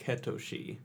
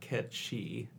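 First: The name is said with three syllables. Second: The name is said as two short syllables. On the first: This is how the original Japanese version renders it. "in the original Japanese ... the phonetic spelling of it is like Ketoshi" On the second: This is how the original folklore language says it. "it's pronounced Ketchi because of crazy Gaelic languages"

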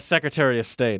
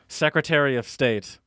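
First: It is said quickly with reduced Michigan-style vowels. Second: It is said slowly with every syllable clearly enunciated. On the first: "you said it the Michigan way first" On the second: "then I enunciated"

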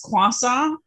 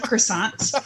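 First: It is said with a French-style pronunciation. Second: It is said with an ordinary English pronunciation. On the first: "my mother-in-law says croissant" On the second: "instead of croissant"

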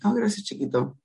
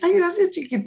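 First: It sounds cold and pointed. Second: It sounds sweet and flirty.

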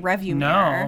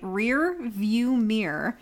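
First: The first word sounds like rev. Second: The first word sounds like rear. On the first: The speaker calls it wrong. "Because I always say revview mirror" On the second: The speaker calls it right. "I can't say it right"

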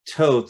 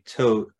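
First: The name ends like the word oath. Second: The name does not end like oath. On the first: This is the proper pronunciation. "I think the proper way is Toth, like you're taking an oath" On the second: This is how one group habitually says it. "but me and others, we always say Toth"

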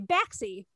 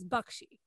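First: The middle consonants are said as ks. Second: The middle consonants are said as ksh. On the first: "we say Baxi because it's easier. It's taxi with a B" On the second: "the way to pronounce it properly is Bakshi. The X is a ksh"

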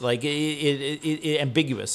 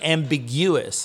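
First: The stress falls on the expected syllable. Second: The stress falls on an unexpected syllable. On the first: The speaker calls it right. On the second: The speaker calls it wrong.

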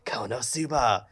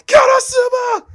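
First: It is said in a sly, scheming tone. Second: It is shouted loudly and desperately.

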